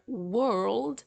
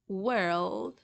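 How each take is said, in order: First: The vowel sounds like a rounded o. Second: The vowel sounds like a neutral uh. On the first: The speaker calls it wrong. "you won't say word or world" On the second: The speaker calls it right. "instead you will say word, world"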